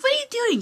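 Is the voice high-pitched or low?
high-pitched. It is said in a high, childlike voice.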